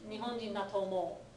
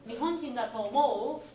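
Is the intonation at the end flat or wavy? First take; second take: flat; wavy. First: The intonation stays flat through the end. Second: The intonation moves up and down at the end. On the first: It states a belief that he is Japanese. "It's flatter on the answer" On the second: It asks whether the friend thinks he is Japanese. "the squiggly intonation"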